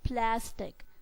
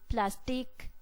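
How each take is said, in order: First: The stress is on the first syllable. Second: The stress is on the second syllable. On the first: The speaker calls it right. "We pronounce it as plastic. So the stress is on the pla syllable" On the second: The speaker calls it wrong. "We do not pronounce it as plastic"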